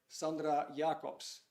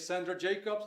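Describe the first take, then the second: First: The name is said with a Dutch pronunciation. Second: The name is said with an English pronunciation. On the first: "should I pronounce it in a Dutch way?" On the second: "Should I say Sandra Jacobs"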